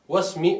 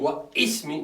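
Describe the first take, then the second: First: The hamza is dropped, giving wasmi. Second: The hamza is pronounced, giving wa ismi. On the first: The speaker calls it right. "the hamza will disappear" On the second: The speaker calls it wrong. "I'm not saying wa ismi, no, doesn't make sense"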